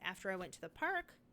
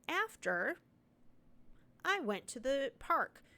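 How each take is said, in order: First: There is no pause after the first word. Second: There is a pause after the first word. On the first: The speaker calls it right. "the after doesn't need a comma" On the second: The speaker calls it wrong. "You can't have a pause there. So you can't say"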